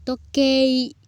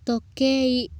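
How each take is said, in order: Both takes have the same delivery.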